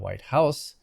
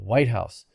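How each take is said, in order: First: The main stress falls on house. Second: The main stress falls on white. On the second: It is the name of one specific building.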